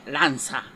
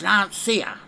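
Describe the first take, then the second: First: The name is said with an Italian pronunciation. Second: The name is said with an English pronunciation. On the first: The speaker calls it wrong. "Anybody pretending to be Italy and Italian pronounces it Lancia, which is not English" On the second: The speaker calls it right. "Anybody who don't know how to pronounce Lancia is not English. It's Lancia"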